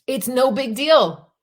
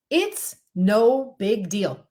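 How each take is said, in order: First: "It's no big deal." pushed higher and louder, "deal" falling; louder, higher emphatic repeat. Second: "It's no big deal." drawn out word by word, very slowly; very slow and deliberate. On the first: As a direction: punch "It's no big deal." harder the second time. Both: Shown as a demonstration.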